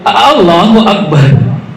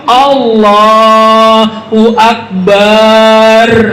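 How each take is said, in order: First: The opening vowel is drawn out. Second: The last syllable's vowel is drawn out. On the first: It asks whether God is the greatest. "Itu buat hamzah istifham" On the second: It names a drum instead of calling God greatest. "bepanjang barnya"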